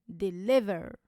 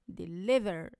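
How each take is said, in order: No difference in how they are said.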